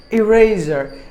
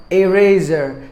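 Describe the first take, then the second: First: Said in the usual way. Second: "eraser" starting with AY, as in ay-raser; learners' mispronunciation. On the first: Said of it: "there's another word called eraser". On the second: Shown as a demonstration. Teacher showing the ESL speakers' mistake, "eraser" as ay-raser. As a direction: say "eraser" with the letter name A up front. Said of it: "tend to pronounce it like".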